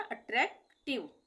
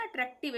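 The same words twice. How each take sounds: First: अट्रैक्टिव with a gap before tiv; not read together. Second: अट्रैक्टिव run together without a break; all in one flow. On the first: Teacher showing it is not one piece, अट्रैक्टिव split. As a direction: break अट्रैक्टिव into attrak and tiv. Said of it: "एक साथ नहीं पढ़ रहे ना". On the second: Teacher contrasting with split reading, अट्रैक्टिव said all at once. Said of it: "प्रवाह में नहीं हो रहा है ना". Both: Shown as a demonstration.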